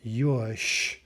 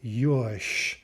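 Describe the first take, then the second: First: The word ends with a voiceless SH sound. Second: The word ends with a voiceless SH sound.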